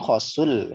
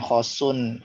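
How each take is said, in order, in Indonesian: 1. Bunyi n di akhir menyatu dengan bunyi setelahnya. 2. Bunyi n di akhir jelas tetap dibunyikan. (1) "kalau di Quran kan khosul" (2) "tidak dibaca nih idgomnya"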